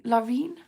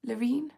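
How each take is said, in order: First: "Laureen" with an open LAW at the start, as a question; unsure pronunciation. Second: "Laureen" with a short luh at the start, softly questioning; unsure pronunciation. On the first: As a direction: try "Laureen" as LAW-reen, rising at the end. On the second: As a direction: try "Laureen" as luh-REEN, softer and rising. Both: Real, not acted. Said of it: "I don't know how you say that".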